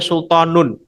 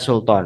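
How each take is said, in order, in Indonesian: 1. Kata ini berakhir dengan tambahan suku kata -un. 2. Kata ini berakhir dengan bunyi n saja. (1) "Ketika diwasol tetap dibaca sultanun" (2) "asalnya kalau berhenti menjadi sultan"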